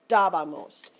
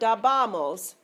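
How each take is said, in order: First: The stress falls on the first syllable. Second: The stress falls after the first syllable. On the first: The speaker calls it right. "third syllable from the end" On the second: The speaker calls it wrong. "it's not dabamos"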